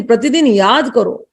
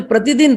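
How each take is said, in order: First: प्रतिदिन drawn out slowly and pressed, याद करो falling; slow stress on प्रतिदिन. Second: Said in the usual way. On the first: Shown as a demonstration. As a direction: lean on प्रतिदिन as an urging reminder.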